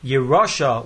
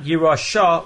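First: The stress falls near the start of the word. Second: The stress falls near the end of the word. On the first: It is a command to take possession. The speaker calls it right. "with the accent on the Reish" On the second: It is a noun meaning inheritance. The speaker calls it wrong. "not Yerosha with the accent on the Shin"

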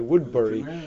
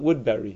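First: The last part sounds like 'burry'. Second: The last part sounds like 'berry'. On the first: "it's spelled B-U-R-Y" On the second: "people generally call it Woodbury, as if it's B-E-R-R-Y"

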